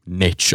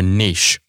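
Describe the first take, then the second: First: The word has an American pronunciation. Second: The word has a British pronunciation.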